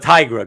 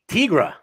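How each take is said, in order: First: The first syllable sounds like 'tiger'. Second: The first syllable does not sound like 'tiger'. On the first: This is the speaker's own pronunciation. "I'm a Tigra guy" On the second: This is the other person's pronunciation. "that you say Tigra"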